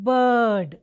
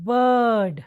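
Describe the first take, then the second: The two takes are said the same way.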